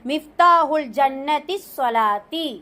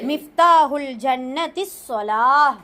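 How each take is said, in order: First: The last word keeps its full ending, -ti. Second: The last word stops short, ending in h. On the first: "ஃபுல்லா சொன்னாலும் ஒன்றும் பிரச்சனை இல்லை" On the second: "நிப்பாட்டுனா இகு நிப்பாட்டலாம்"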